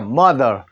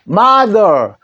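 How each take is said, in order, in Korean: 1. 첫 모음은 짧은 'uh' 소리로 납니다. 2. 첫 모음은 열린 'ah' 소리로 납니다. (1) "어 소리로 나면은 mother 되죠" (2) "마라는 소리로 나는데 아 해보십시오"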